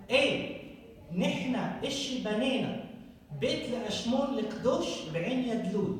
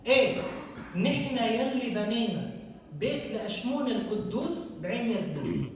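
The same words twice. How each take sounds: First: Put-on quick, even reading of نحن إشي بنينا in old Phoenician sounds, القدوش with a hard sh. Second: Lebanese accent. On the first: Reading the Canaanite inscription aloud to the audience in Phoenician. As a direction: read the ancient line as the Phoenician original. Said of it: "in Phoenician it says". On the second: Rereading the inscription for the audience in today's Lebanese accent. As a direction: rattle it off like a Beirut local. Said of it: "In Lebanese". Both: Shown as a demonstration.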